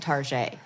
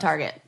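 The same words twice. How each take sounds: First: It is pronounced in a fancy, French-sounding way. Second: It is pronounced in a plain, ordinary way. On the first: The brand is made to sound posh. The speaker calls it wrong. "putting a fancy" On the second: It is just the normal store name. The speaker calls it right. "It's fucking Target"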